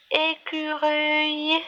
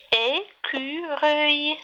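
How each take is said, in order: First: Said in the usual way. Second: ÉCUREUIL in three slow beats, é-cu-reuil; split into syllables. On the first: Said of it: "Le deuxième mot". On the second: Shown as a demonstration. Teacher counting syllables for children, "écureuil" broken into three. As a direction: say "écureuil" with a gap after each syllable. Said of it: "Trois syllabes".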